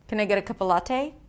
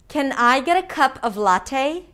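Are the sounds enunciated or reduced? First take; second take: reduced; enunciated. First: Sounds are reduced, held, and the T is flapped. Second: Every sound is fully and separately enunciated. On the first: The speaker calls it wrong. "an example where I use reductions, held sounds, and the flap T" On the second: The speaker calls it right. "it's a lot clearer if I enunciate every sound"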